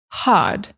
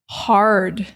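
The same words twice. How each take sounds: First: The R sound is dropped, British style. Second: The R sound is clearly pronounced. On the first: This became fashionable among the English upper classes. "to drop the R and forgive my British impersonation" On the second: This is how early settlers and Americans say it. "The original English R was like er. So we said mother, hard. Just like we pronounce the R today in standard American English"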